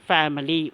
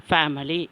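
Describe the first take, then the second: The two takes are said the same way.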